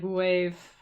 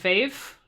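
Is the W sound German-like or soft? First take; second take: soft; German-like. First: The W is soft, like a U. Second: The W sounds German, like a V.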